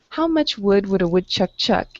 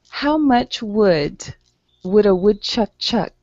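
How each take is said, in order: First: It is read at a fast pace. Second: It is read at a slow pace.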